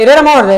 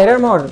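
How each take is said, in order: First: Louder urgent call. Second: Said in the usual way. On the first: Real, not acted.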